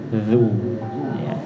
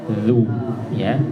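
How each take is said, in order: No difference in how they are said.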